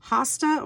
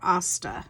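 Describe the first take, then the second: First: The word begins with an H sound. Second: The word begins without an H sound. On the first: "pronounce the H" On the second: "or not"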